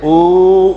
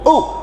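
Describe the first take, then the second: First: The vowel is drawn out long. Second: The vowel is said short and quick. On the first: The mark is reversed. "खींच कर पढ़ेंगे" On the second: The mark is straight. "जल्दी पढ़ेंगे"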